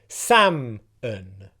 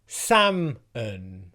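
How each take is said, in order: Both takes have the same delivery.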